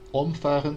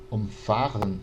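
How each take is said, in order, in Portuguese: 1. A sílaba tônica está na primeira sílaba. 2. A sílaba tônica está na segunda sílaba. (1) "quando a gente tem a sílaba tônica no om" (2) "com a sílaba tônica no fa"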